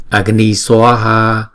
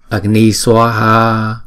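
The two takes are said the same way.

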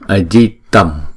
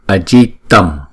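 First: The word ends with an m sound. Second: The word ends with an m sound.

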